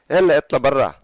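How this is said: It is said in an angry tone.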